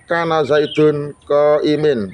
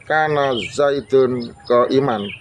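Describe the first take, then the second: First: The last word ends in an i vowel. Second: The last word ends in an a vowel. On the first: The speaker calls it wrong. "Tidak boleh dibaca kana zaidun qaimin, enggak boleh" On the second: The speaker calls it right. "khobar kana itu wajib mansub atau fathah... Itu adalah bacaan yang benar"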